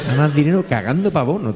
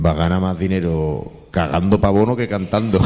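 First: Higher, fast, giggling retelling; laughing repeat. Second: Quoting Paco Gandía. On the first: Real, not acted. The speaker savouring Paco Gandía's joke, laughing. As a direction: relish the punchline through laughter. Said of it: "repeating the punchline". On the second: Retold or imitated. Paco Gandía teasing the Mani over his empty plates, deadpan jab. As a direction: deliver the insult straight-faced. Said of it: "cuando ve los platos dice".

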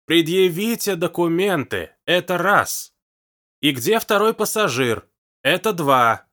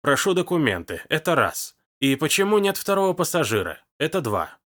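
First: Loud, slow, higher shouted demand; shouting. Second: Routine bureaucratic demand, counted off; officious tone. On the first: Hugo shouting in the deaf old woman's ear, loud. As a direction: yell each word into a deaf ear. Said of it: "прокричал". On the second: Engar demanding papers from the old woman, officious and routine. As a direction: read it like a bored official form. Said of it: "уже привычным казённым тоном добавил". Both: A narrator's reading.

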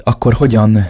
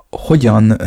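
First: Said in the usual way. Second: Hogyan breathed out as a whisper. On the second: A narrator's reading. The girl, too flustered to finish, whispers. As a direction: let the word die away in a whisper. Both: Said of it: "képtelen volt befejezni a mondatát".

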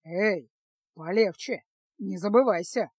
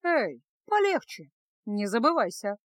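First: Indignant, sharp warning; angry rebuke. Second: Calm. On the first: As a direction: put her in her place angrily. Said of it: "гневно возмутился чародей". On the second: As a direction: hand his words back coolly. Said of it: "спокойно ответила Феска". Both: A narrator's reading.

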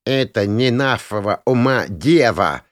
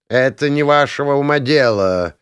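First: Teasing imitation of a lofty elf; mocking mimicry. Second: Lofty, melodious elven put-down; melodious rebuff. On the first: Young mage parroting the elf archmage, mockingly. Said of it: "передразниваю я эльфийского, чуть ли не архимага". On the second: Elf cutting off the meddling mages, melodiously. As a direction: cut them off in a lilting voice. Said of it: "мелодично отрезал эльф". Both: A narrator's reading.

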